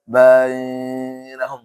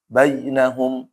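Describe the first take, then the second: First: The vowel sound is stretched long. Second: The vowel sound is kept short. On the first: The reader has stopped at this word. The speaker calls it wrong. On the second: The reading continues without stopping. The speaker calls it right.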